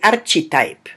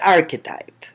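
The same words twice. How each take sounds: First: The ch is pronounced like ch in church. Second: The ch is not pronounced like church's ch. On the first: The speaker calls it wrong. "the C H doesn't sound ch, so we don't say archetype" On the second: The speaker calls it right. "but archetype"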